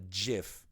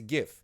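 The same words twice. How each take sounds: First: It begins with a soft J sound. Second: It begins with a hard G sound. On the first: The speaker calls it wrong. "It's not a GIF. GIF is peanut butter" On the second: The speaker calls it right. "It's a GIF"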